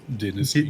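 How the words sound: The word is said with a British pronunciation. "British says dynasty"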